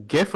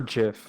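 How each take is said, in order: First: Gif with G as in gift; hard G. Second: Jif with a J sound; soft G. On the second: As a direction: say "jif" like the J in jam. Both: Shown as a demonstration. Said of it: "do you say".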